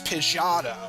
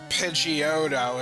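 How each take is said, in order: First: It is said in an unofficial, personal way. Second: It is said with the official pronunciation. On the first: "its name is Pidgeotto" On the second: "if you want to go by the official pronunciation"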